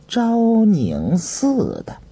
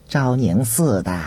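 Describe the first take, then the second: First: Drawn-out, pondering echo, higher pitched; slow musing repeat. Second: Said in the usual way. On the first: A narrator's reading. Visitor echoing the host's answer, slow and pondering. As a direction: stretch each word as you weigh it.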